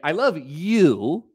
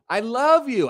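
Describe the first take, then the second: First: The word you carries the emphasis. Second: The word love carries the emphasis. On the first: The love is for this person, not another. "not not your sister" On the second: The feeling is love, not hate. "I don't hate you"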